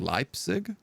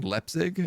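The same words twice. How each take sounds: First: The first vowel sounds like 'eye'. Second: The first vowel does not sound like 'eye'. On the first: The speaker calls it right. "I should be saying Leipzig" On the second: The speaker calls it wrong. "I'm saying Leipzig"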